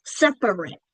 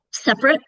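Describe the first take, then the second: First: "separate" in three full syllables, SEP-er-it; said as spelled. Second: "Separate" said quickly as SEP-rit; two syllables in "Separate", middle vowel dropped; reduced middle syllable. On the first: Teacher showing the spelling, all three syllables of "separate" sounded. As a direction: keep the middle syllable in "separate". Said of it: "it's spelled separate". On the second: Teacher showing quick everyday speech, "Separate" as SEP-rit. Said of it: "we reduce that middle syllable". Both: Shown as a demonstration.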